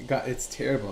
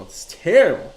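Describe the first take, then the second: First: Said in the usual way. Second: Louder, higher emphatic "It's terrible"; emphatic repeat. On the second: Real, not acted. Repeating his dismay to Mike, louder and higher. Repeats lament with more force.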